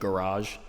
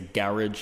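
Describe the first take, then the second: First: The stress is on the second syllable. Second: The stress is on the first syllable. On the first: This is the American way of saying it. "instead of garage" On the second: This is the British way of saying it. "the Brits tend to emphasize the first syllable, like when they say garage"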